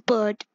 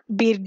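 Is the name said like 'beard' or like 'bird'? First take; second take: bird; beard. First: The vowel sounds like the one in 'bird'. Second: The vowel sounds like the one in 'beard'. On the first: The speaker calls it right. "B-Y-R-D is pronounced as bird" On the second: The speaker calls it wrong. "I was playing it as like beard"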